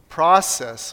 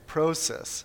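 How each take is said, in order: First: The word is said with an American accent. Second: The word is said with a Canadian accent. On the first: "So what would an American say?" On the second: "What does Canadian say?"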